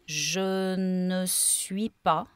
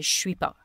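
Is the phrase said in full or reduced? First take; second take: full; reduced. First: Every word is said fully, including "ne". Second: The phrase is reduced, dropping "ne". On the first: "on the first recording, I would say" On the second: "on the third recording, I would say"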